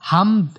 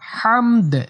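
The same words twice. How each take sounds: First: The final d is cut short without a bounce. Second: The final d is released with an echoing bounce. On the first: The speaker calls it wrong. "হামদ এরকম বলে বলা যাবে না" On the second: The speaker calls it right. "লাস্টে দাল একটু কলকলা করতে হবে"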